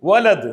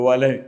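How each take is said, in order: First: The word ends with a d sound. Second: The word ends with a vowel. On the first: The speaker calls it wrong. "വലത് എന്നല്ല" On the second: The speaker calls it right.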